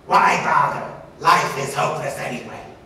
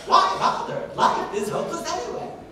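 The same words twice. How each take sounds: First: Faster, varied pitch with a buzzy angry tone. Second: Higher pitched, lively and varied, sounding happy. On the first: "a little bit faster, a little bit more variation, ... buzzy tone, ... sounds angry" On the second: "happiness ... higher sounds and also more variation"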